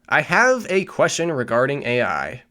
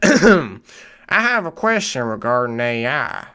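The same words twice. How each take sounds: First: It is read in the speaker's ordinary accent. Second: It is read in a put-on country accent.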